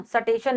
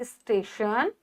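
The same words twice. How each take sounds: First: सटेशन said as sa-tay-shun with a full sa; सटेशन spoken with an extra vowel in front; wrong pronunciation. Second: स्टेशन with a half s, st joined; स्टेशन, s running straight into t; correct pronunciation. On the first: Teacher shows the class the wrong सटेशन, carefully pronounced. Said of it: "सटेशन नहीं". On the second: Teacher gives the class the right स्टेशन, spoken softly. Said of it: "हमेशा आधा सा आएगा". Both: Shown as a demonstration.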